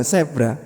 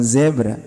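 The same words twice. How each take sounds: First: "zebra" said as "sebra", voiceless s; imitating everyday "sebra" for "zebra". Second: Said in the usual way. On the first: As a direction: start "zebra" with a hissed s. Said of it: "Mungkin orang-orang mengucapkannya". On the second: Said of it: "bukan zebra".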